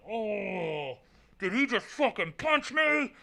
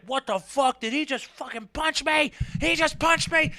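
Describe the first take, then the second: First: High, held-back cry of disbelief; acted-out stunned reaction, pitched way up. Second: High-pitched mock outrage; incredulous, high retold outburst; outraged disbelief. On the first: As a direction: relive the shock in a high, strained voice without volume. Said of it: "I just remember doing this. I was like". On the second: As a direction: act out total shock at the hit, voice way up. Acting out shock at being punched.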